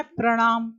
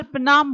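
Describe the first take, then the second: First: प्रणाम with full pr and retroflex ɳ; correct प्रणाम. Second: प्रणाम slurred as pnam, r dropped; wrong प्रणाम. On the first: Teacher gives the correct प्रणाम. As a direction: say प्रणाम clearly as prəɳam. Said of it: "होता है प्रणाम". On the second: Teacher imitates the common sloppy प्रणाम. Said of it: "हम ज्यादातर प्रणाम बोलते हैं". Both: Shown as a demonstration.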